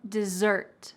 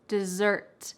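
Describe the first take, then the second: First: The stress is on the second syllable. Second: The stress is on the second syllable.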